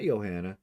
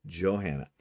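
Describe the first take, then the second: First: Johanna begun with a Y, "Yo-hanna"; wrong pronunciation. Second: Johanna with a J and sounded H; correct pronunciation. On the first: Host ruling out her old mistake, Johanna with a Y. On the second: Host confirming subscriber's real name, Johanna with a J. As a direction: say Johanna as "Jo-HAN-na". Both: Shown as a demonstration. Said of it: "her name is actually pronounced".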